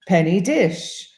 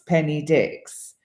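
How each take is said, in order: First: The surname ends with an 'sh' sound. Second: The surname ends with a 'ks' sound. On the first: "in Maltese would be pronounced Dish" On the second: "my surname, D I X, Penny Dix"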